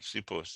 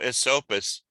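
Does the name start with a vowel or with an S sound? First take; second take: S sound; vowel. First: The name starts directly with an S sound. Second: The name starts with an extra vowel syllable. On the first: The speaker calls it right. "but it's uh, Sipus" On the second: The speaker calls it wrong. "Esopus isn't exactly correct"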